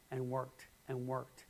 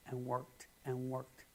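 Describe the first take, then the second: No difference in how they are said.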